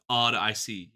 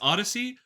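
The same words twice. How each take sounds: First: Each syllable of the name is sounded out separately. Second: The name is said smoothly, like the ordinary word. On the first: "over enunciate it" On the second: "I think it's Odyssey"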